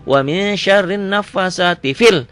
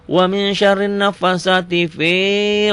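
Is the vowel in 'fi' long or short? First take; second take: short; long. First: The vowel in 'fi' is kept short. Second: The vowel in 'fi' is drawn out long. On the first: The speaker calls it right. "fi-nya pendek" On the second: The speaker calls it wrong.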